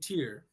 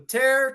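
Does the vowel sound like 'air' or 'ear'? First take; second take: ear; air. First: The vowel sounds like 'ear'. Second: The vowel sounds like 'air'.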